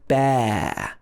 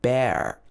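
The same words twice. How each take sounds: First: It is said with no R sound at the end. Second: It is said with an R sound at the end. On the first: The speaker calls it right. "It doesn't have the R sound in it" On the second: The speaker calls it wrong. "not pronounced like bear, like in an American accent"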